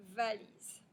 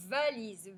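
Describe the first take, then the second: First: Said in the usual way. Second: VALISE with a long, stronger v; elongated initial v. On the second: Shown as a demonstration. Teacher has pupils hear v, "valise" stretched at the start. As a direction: hold the v of "valise". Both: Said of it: "le son ve".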